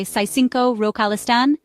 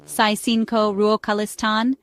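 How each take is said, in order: First: Said in the usual way. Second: Slow, careful "Saisinko ruokalistan" for learners; slow demonstration. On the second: Shown as a demonstration. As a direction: draw out "Saisinko ruokalistan" so learners can follow. Phrase repeated slowly for learners.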